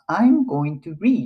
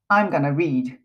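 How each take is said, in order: First: Each word of 'going to' is said separately. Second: 'Going to' is squeezed together into 'gonna'. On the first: "I'm going to read って言ってもらえたらわかるじゃないですか" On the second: "でもまたこれもつなげるんですよね"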